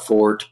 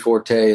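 First: The final vowel is silent; one syllable. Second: The final vowel is pronounced and stressed. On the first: The speaker calls it wrong. "I think some people call it Fort" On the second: The speaker calls it right. "definitely stresses the E at the end of it"

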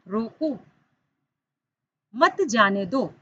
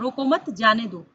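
First: The pause comes after 'roko'. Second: The pause comes after 'mat'.

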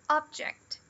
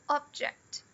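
First: The stress is on the first syllable. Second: The same.

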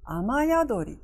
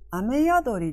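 First: The vowel before yadori is a. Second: The vowel before yadori is e. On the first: "雨という最初の方の要素のこの最後のえという音があになって雨宿りとなる" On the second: "雨宿りではなく"

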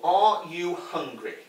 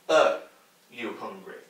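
First: Each word is said carefully and in full. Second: The words are run together with reduced sounds. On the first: The speaker calls it wrong. "We don't say it like that" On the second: The speaker calls it right. "We say"

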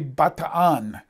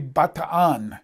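First: The name is said in a Filipino way. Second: The name is said in a Filipino way.

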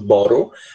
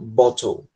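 First: The t sounds like a quick r-like flap. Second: The t is pronounced as a clear t. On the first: "Geralmente quem é americano fala bottle, eles pegam o T e transformam em R" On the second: "eles falam bottle"

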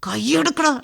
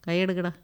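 First: The line is said loudly and dramatically. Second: The line is said quietly and calmly. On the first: This is the older, overdone style of dubbing. The speaker calls it wrong. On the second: This is the newer, natural style of dubbing. The speaker calls it right.

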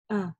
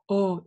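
First: The vowel is a moderate, open a. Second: The vowel is deep and wide, like o. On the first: The speaker calls it right. "Нет" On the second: The speaker calls it wrong. "не делаем широкий такой глубокий звук О"

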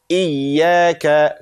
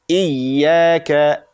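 The two takes are said the same way.

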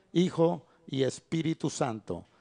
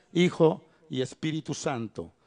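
Both takes have the same delivery.

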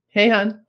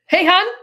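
First: It is said flatly, with little enthusiasm. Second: It is said livelier, with more enthusiasm.

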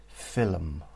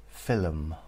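The two takes are said the same way.

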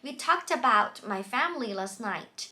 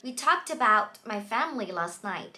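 The two takes are said the same way.

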